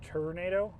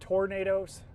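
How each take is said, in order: First: The first syllable sounds like 'tur'. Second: The first syllable sounds like 'tor'. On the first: The speaker calls it wrong. "I pronounced it tornado, and uh, definitely got made fun of a lot for that" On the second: The speaker calls it right. "But yeah, it's tornadoes"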